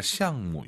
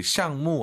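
First: 시향무 with a light, unstressed 무; neutral-tone final syllable. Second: 시향무 with full falling tone on 무 too; both fourth tone. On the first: Teacher recommends the spoken form to learners, 시향무 with neutral-tone 무. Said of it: "구어체에서는 경성으로도 하니까". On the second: Teacher shows the less colloquial take, 시향무 in full fourth tones. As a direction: give both syllables of xiangmu in 시향무 a firm fall. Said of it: "시향무 하는 것보다". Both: Shown as a demonstration.

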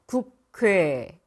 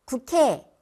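First: 국회 very slow, 회 glide held long; correct way. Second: 국회 said higher and louder, 회 glide flattened; sloppy 국회; wrong way. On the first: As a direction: stretch 국회 slowly. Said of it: "네, 맞습니다". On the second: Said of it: "아니죠". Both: Shown as a demonstration.

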